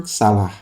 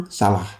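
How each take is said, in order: The two takes are said the same way.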